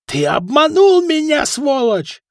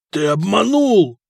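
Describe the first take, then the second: First: Very high, loud screeched accusation; furious shriek. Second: Slow, drawn-out accusation, raised and voiced; doomed. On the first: Foka rushing at the swindler, furious shriek. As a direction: screech it at the man who cheated you. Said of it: "завизжал Фока". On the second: Foka on the ground facing his cheater, doomed. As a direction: drag out the accusation as a doomed man. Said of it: "обречённо прошептал Фока". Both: A narrator's reading.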